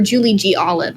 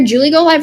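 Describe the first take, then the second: First: The handle is split as 'G Olive'. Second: The handle is split as 'Go Live'. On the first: "or Julie G Olive" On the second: "it's either Julie Go Live"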